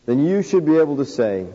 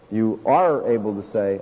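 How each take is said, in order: First: Said in the usual way. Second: "are" leaned on, lower and firmer; stress on are. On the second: Real, not acted. Preacher to congregation, pressing "are" firmly. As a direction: correct himself by pressing "are".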